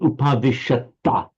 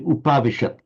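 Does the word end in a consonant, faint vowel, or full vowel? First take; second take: full vowel; consonant. First: The word ends with a full final vowel. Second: The word ends on a bare final consonant. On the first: "It's not upavishata with the full ta" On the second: "in ordinary prose"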